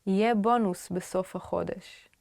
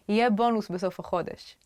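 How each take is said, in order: First: Phrase modelled unhurriedly for learners; measured teaching pace. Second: Fast, fluent run through the phrase; natural quick pace. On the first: Teacher modelling a bonus phrase for learners, measured pace. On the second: Teacher repeating a bonus phrase for learners, quick pace. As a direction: say it briskly, words linked. Phrase modelled slower, then faster. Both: Shown as a demonstration.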